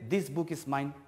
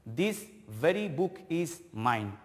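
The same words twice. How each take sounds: First: Said in the usual way. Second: Slow, with "very" pressed hard; stress on very. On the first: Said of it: "If I say this book is mine". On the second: Shown as a demonstration. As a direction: lean into "very" to emphasise the book. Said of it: "that means I am giving more stress".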